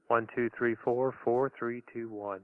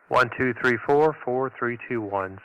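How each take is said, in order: First: The voice sounds plainer, without the speech processor. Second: The voice sounds compressed and punchy from the processor. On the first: "I'm going to go ahead and turn on the equalizer" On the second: "So that's with the processor on"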